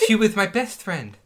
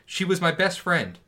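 First: It is read in a put-on impersonation voice. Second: It is read in the speaker's own normal voice.

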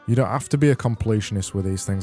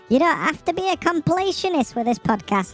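First: It is said in his normal voice. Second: It is said in a put-on ombudsman voice.

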